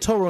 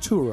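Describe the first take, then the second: First: The first vowel sounds like 'oh'. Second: The first vowel sounds like 'oo'. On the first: The speaker calls it wrong. "I said Toro instead of Turo" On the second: The speaker calls it right. "I said Toro instead of Turo"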